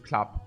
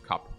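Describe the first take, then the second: First: The k is followed by an l sound. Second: The k goes straight into the vowel. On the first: "Thais cannot speak R, so they always use klap" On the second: "ninety percent of Thais just use cup"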